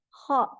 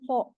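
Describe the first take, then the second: First: The vowel is open, like 'a'. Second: The vowel is rounded, like 'o'. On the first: The speaker calls it right. "tapi kha" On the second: The speaker calls it wrong. "bukan kho, bukan"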